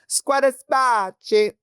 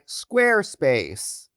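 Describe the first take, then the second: First: It is said in a mock Italian accent. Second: It is said in a plain English accent.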